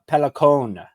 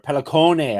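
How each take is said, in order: First: It is said with a plain English accent. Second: It is said with an exaggerated Italian accent.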